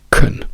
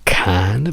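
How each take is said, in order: First: The vowel is reduced to a weak sound. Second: The vowel is full and clear.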